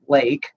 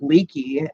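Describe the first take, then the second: First: The name is said with one syllable. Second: The name is said with two syllables. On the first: Someone who knows the family is calling. The speaker calls it right. "and it's Lake" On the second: A stranger is calling. The speaker calls it wrong. "they'll pronounce their name Leaky"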